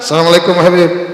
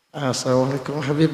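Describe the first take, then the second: First: It is said in a plain, firm, businesslike voice. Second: It is said in a soft, coquettish, flirty voice. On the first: The woman keeps a modest distance from the man. The speaker calls it right. "Itu perempuan yang terbaik" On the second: The woman sounds inviting toward an unrelated man. The speaker calls it wrong. "jangan begitu. ... Bukan yang kemenyek"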